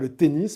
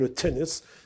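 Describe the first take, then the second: First: It is said with a French accent. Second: It is said with an English accent. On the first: "non pas le tennis" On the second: "ce que eux-mêmes continuent à appeler"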